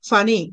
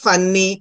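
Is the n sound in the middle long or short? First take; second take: short; long. First: The middle n sound is short and single. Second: The middle n sound is long and doubled. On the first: The speaker calls it right. "రెండు letters పలకకుండా ఒకటే పలకాలి" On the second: The speaker calls it wrong. "అంతేగాని ఫన్నీ, సన్నీ అనకూడదు"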